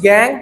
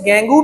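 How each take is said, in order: First: The word ends on a consonant sound. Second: The word ends with an added vowel sound. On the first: "کچھ گینگ پڑھتے ہیں" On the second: "کچھ لوگ اسے گینگو بھی پڑھتے ہیں"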